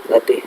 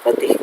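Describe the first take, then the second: Both takes have the same delivery.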